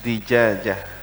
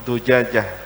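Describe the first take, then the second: First: The first vowel is an i sound. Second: The first vowel is a u sound. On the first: "dibaca kasrah" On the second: "Tidak boleh dibaca dhammah"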